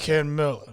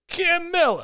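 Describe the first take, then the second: First: The voice is pitched low and deep. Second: The voice is pitched fairly high. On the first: The speaker calls it right. "Go deep. ... See? That's all you gotta do" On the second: The speaker calls it wrong. "No, you're going higher"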